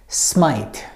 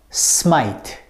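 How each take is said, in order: No difference in how they are said.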